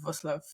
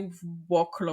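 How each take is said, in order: First: The name begins with a v sound. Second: The name begins with a w sound. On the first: The speaker calls it right. "but it's Voslav. That's how they pronounce it" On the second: The speaker calls it wrong. "You would say Woklo or something"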